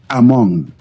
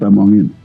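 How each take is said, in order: First: The name ends after the syllable mong. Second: The name has an extra syllable after mong. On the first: The speaker calls it right. "Among, not among him. That's that's the difference" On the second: The speaker calls it wrong. "not among him"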